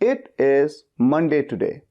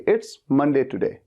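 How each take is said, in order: First: It is said fully as two words. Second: It is contracted into a single syllable.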